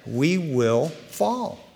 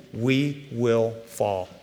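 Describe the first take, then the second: First: "we will fall" very slow, "fall" lifted on a rise; stress on FALL. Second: "we will fall" drawn out slow and soft, falling; slow solemn. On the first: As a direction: lean on "fall" slowly. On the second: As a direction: let "we will fall" sink slowly. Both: Shown as a demonstration. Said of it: "Not we might or we could".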